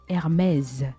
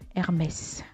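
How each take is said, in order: First: The final sound is a buzzing z. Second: The final sound is a hissing s. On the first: The speaker calls it right. "le S à la fin, ça se prononce plutôt euh, comme un Z" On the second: The speaker calls it wrong. "ne dites plus Hermès"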